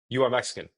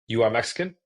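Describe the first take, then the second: First: The voice goes level or falls at the end. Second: The voice rises from low to high.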